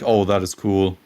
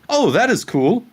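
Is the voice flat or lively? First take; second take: flat; lively. First: It is said in a flat, monotone voice. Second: It is said in a raised, lively voice. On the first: It sounds uninterested and dull to watch. The speaker calls it wrong. "like super monotone" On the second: It sounds interested and engaging to watch. The speaker calls it right. "raising my voice when I find something interesting"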